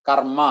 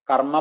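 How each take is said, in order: Both takes have the same delivery.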